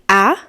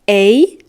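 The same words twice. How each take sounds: First: The vowel sounds like the one in apple. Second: The vowel sounds like the one in snake. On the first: "apple, like a"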